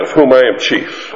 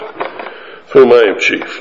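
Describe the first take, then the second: First: Said in the usual way. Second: Slowed down, each word weighed; slow repeat. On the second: Shown as a demonstration. Preacher repeating Paul's confession for emphasis, slow and grave. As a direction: let "Of whom I am chief" sink in slowly. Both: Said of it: "Paul adds this caveat".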